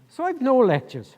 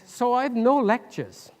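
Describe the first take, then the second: First: It is said in an Irish accent. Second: It is said in the speaker's usual accent.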